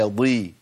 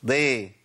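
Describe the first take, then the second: First: ضي with its full emphatic weight; correct heavy dad. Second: ضي said thin, the emphasis dropped; wrong thin dad. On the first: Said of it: "لا، ما ينفعش، هي ضي". (ضي مفخمة صحيحة) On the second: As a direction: flatten ضي wrongly. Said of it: "فأجيبه كده". (ضي مرققة خطأ) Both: Shown as a demonstration.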